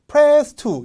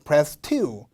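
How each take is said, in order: First: "Press" punched high and loud, "two" dropped; wrong stress on PRESS. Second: Said in the usual way. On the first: Shown as a demonstration. Teacher showing how not to read it, "Press" over-stressed. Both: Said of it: "이렇게 읽으면 안 돼요".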